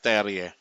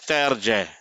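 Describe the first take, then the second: First: The J sound is weak or missing. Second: The J sound is clearly pronounced. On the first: The speaker calls it wrong. "and not" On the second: The speaker calls it right. "the J is prominent"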